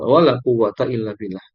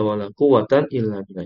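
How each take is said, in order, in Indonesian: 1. Kata quwwat berakhir dengan bunyi -a. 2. Kata quwwat berakhir dengan bunyi -an. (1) "yang kedua isim latnya dimabnikan atas fathah" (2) "dengan akhiran tanwin fathah"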